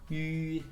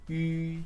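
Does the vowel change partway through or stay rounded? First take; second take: stays rounded; stays rounded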